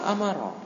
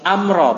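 First: It has three syllables, 'a-ma-ra'. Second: It has two syllables, 'am-ra'. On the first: The speaker calls it wrong. "bukan amara" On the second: The speaker calls it right. "Amra, bukan amara"

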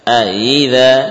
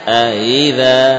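No difference in how they are said.

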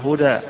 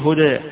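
First: The final vowel is a fully open 'a'. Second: The final vowel leans slightly toward 'e'. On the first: "اللي يفتحها هدى" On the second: "اللي يقلل يقول هدى"

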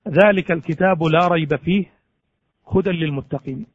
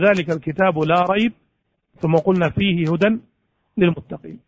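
First: The pause comes after the word fihi. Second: The pause comes after the words la rayb. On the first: The book is free of doubt and is wholly guidance. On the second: There is no doubt, and the book contains guidance.

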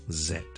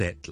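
First: The word starts with a voiced z sound. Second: The word starts with a voiceless s sound. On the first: The speaker calls it right. "英文系z z z" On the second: The speaker calls it wrong. "就唔会系set 啦"

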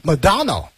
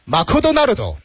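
First: It is said with an English pronunciation. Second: It is said with a Japanese-style pronunciation. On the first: "发音英文的话是Madonna" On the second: "如果是日式英语的话，那就是Makudonaldo"

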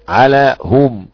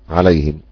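First: The h is followed by a 'u' vowel. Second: The h is followed by an 'i' vowel. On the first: This keeps the original form of the word. "عليهم حمزة ويعقوب بضم الهاء على الأصل" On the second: This matches the vowel of the sound before it. "والباقي عليهم الكسر للمناسبة"

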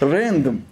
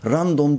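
First: It is pronounced with English-style vowels and sounds. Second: It is pronounced with Turkish-style vowels and sounds. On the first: The speaker calls it right. "Random diyeceksin diyor" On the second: The speaker calls it wrong. "Random değil hocam"

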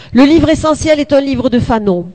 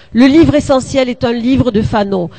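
No difference in how they are said.

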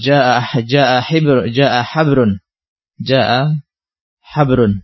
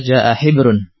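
First: The second word begins with an 'a' vowel. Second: The second word begins with an 'i' vowel.

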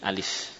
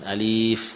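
First: The first vowel is kept short. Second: The first vowel is drawn out long. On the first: The speaker calls it right. "tidak ada yang panjang" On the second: The speaker calls it wrong. "bukan alif"

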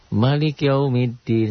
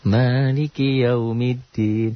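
First: The first vowel of maliki is short. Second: The first vowel of maliki is long. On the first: This follows another recognized reading tradition. "ada ya apa yang lain boleh pendek di situ" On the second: This follows the common, usual reading. "Di situ satu alif matobi"

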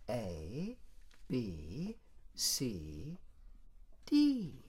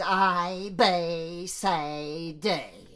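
First: The letter names have standard, careful vowels. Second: The letter names have broad, uneducated vowels. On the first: This is the model to copy. The speaker calls it right. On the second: This mimics a poorly taught speaker. The speaker calls it wrong. "And the result is"

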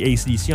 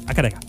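First: Each letter is spoken separately. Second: It is run together as one word. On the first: "même en français on dit AC/DC en anglais" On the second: "l'Australie, prononce ça Akadeka"

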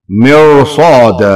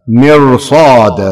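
The two takes are said the same way.

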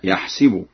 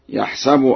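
First: The S is followed by an i vowel. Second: The S is followed by an a vowel.

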